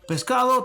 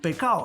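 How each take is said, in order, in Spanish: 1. El sonido de la s se pronuncia claramente. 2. El sonido de la s se elimina.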